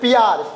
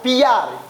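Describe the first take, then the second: First: The word is said as one syllable. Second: The word is said as two syllables. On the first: "जैसे प्यार लिखे ना" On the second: "उच्चारण में ई और यो आ रहा है"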